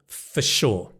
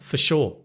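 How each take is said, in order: First: The word 'for' is said in full. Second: The word 'for' is weak and reduced.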